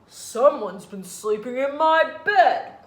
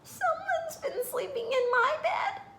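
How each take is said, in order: First: It is said in a deep growl. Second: It is said in a high squeak.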